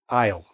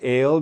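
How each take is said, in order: First: It is said as one syllable with an 'eye' vowel. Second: It is said with an 'ay' vowel, like ale. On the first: The speaker calls it right. "That's how we pronounce this word" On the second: The speaker calls it wrong. "Not ale"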